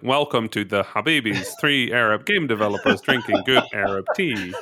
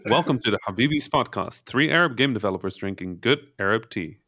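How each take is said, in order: First: It is said in a flat robotic voice. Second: It is said in a polished professional voice.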